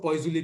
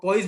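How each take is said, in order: First: "poisuli" said with extra syllables, poy-zoo-lee; long pronunciation "poisuli". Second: "poise" said as one syllable, poyz; short pronunciation "poise". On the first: Teacher showing students what some people say, "poisuli" as poy-zoo-lee. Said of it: "कई लोग इसको poisuli भी बोलते हैं". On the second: Teacher giving students the exam term, "poise" as one syllable. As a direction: say "poise" like English poise, no ending. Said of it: "poise भी बोलते हैं". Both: Shown as a demonstration.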